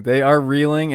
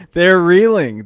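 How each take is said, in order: First: Said in the usual way. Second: Loud, high, punched reeling; emphatic shout. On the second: Real, not acted. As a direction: shout it to drive it home. Repeats it for emphasis.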